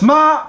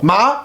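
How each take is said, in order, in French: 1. Cela se dit avec le premier ton. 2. Cela se dit avec le deuxième ton. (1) "premier ton signifie maman" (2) "deuxième ton signifie engourdi"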